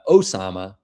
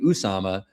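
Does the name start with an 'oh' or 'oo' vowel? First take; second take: oh; oo. First: The name starts with an 'oh' vowel. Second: The name starts with an 'oo' vowel. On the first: The speaker calls it right. "Osama apparently is how you say it" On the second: The speaker calls it wrong. "I've been saying your name wrong for years. I've been saying Usama"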